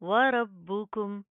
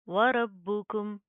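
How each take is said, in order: The two takes are said the same way.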